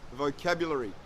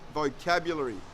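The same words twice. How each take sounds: No difference in how they are said.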